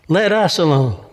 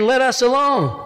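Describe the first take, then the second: First: Said in the usual way. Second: High-pitched cry without added volume; raised-pitch demon's plea. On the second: Acted. Demon in church cries out to Jesus, crying out. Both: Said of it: "cried out with a loud voice".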